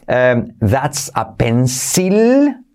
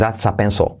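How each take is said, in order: First: The final L is strong and clear. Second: The final L is very soft. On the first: The speaker calls it wrong. "no se dice that's a pencil" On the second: The speaker calls it right. "La L es súper suave al final"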